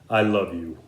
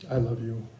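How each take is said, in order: First: The voice sounds cutting and insincere. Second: The voice sounds soft and even. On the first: The speaker does not really mean it. The speaker calls it wrong. "the words and the tone of the voice don't really match up" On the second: The speaker truly means it. The speaker calls it right. "the softness of the voice really convey that to be true"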